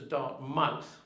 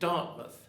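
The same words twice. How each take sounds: First: The second syllable is said fully, like 'mouth'. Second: The second syllable is weak and reduced. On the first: "the more phonetic version" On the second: "You pronounce it Dartmouth"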